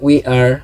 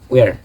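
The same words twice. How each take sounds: First: "we are" slow, as two words; full form. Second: "we're" in one short syllable; clipped-together "we're", one beat; contracted we're. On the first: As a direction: say "we are" uncontracted and drawn out. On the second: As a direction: merge we and are into "we're". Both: Shown as a demonstration. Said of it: "We are becomes".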